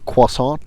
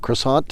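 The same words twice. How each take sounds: First: It is pronounced the French way. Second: It is pronounced the plain English way.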